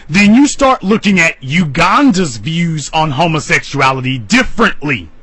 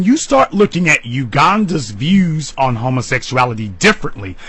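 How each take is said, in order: First: Said in the usual way. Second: Defiant repeat after the taboo slip; deliberate restatement. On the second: Real, not acted. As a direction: say it again, firmer and more settled. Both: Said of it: "Let me say it again".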